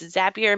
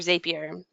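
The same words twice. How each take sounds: First: The name rhymes with happier, starting with zap. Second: The name does not rhyme with happier. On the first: The speaker calls it right. "Zapier makes you happier. So it's Zap" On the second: The speaker calls it wrong. "So I say it wrong all the time"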